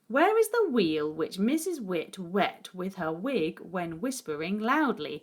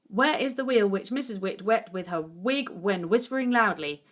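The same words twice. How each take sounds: First: The sentence is read at a careful, slower pace. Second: The sentence is read as fast as possible.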